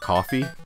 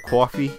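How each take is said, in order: First: Coffee is said in a plain, usual accent. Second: Coffee is said with a Brooklyn-style accent. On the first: "that's usually how I say it" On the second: "it did kind of sound like a Brooklyn thing"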